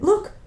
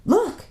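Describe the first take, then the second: First: A second, quicker look; excited repeat. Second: Much higher, thrilled exclamation; excited. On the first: Boy repeating to his sister, still excited. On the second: Boy spotting the lion's shadow, excited. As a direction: blurt it out in excitement. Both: Acted. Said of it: "he said in great excitement".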